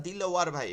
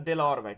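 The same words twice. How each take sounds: First: "দিলওয়ার" with an i in the first syllable; first vowel of "দিলওয়ার" a clear i; Arabic-style pronunciation. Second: Said in the usual way. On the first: Shown as a demonstration. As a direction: say "দিলওয়ার" as dil, not del. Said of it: "আরবিতে লিখি". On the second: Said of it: "তাহলে কি দিল হবে".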